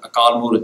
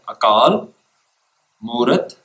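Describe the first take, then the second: First: The two words run together without a pause. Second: There is a pause after Akal.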